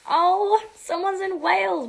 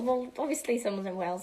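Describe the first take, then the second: First: High, loud fake gasp of discovery; mock surprise. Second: Said in the usual way. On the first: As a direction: act shocked at the news. Mock surprise, then corrected plainly.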